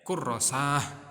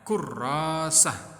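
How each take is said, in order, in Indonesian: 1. Vokal setelah r pendek. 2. Vokal setelah r panjang. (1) "Tidak kurrasah, tidak ya" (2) "Yang panjang roknya"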